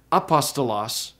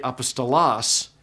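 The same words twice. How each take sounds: First: Apostolos stressed on the second syllable, pos; shifted stress. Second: Apostolos stressed on the final syllable, los; shifted stress. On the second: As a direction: punch the LOS at the end of apostolos. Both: Shown as a demonstration. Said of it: "can hardly tell it's the same word".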